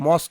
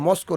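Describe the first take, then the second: First: The word ends on a consonant sound. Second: The word ends with an added vowel sound. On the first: The speaker calls it right. "এটা মস্ক হবে" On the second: The speaker calls it wrong. "এটা মস্কো নয়"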